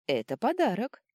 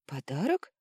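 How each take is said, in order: First: ПОДАРОК stated high, with falling end; подарок as a high, louder statement. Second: ПОДАРОК asked with a rising end; подарок echoed, pitch climbing; echo question. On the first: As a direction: announce подарок as a firm answer, pitch falling. Answering what is in box. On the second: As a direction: repeat подарок as a surprised question. Echoing the answer as a question. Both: A narrator's reading.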